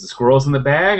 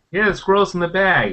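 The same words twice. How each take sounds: First: "The squirrel's in the bag?" higher, rising at the end; checking question. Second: "Yeah" pitched high, then falling through "the squirrel's in the bag"; confirming answer. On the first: Player asking game master if "The squirrel's in the bag?", questioning rise. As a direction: ask "in the bag?" with the pitch lifting on bag. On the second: Game master confirming to player "the squirrel's in the bag", falling tune. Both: Retold or imitated.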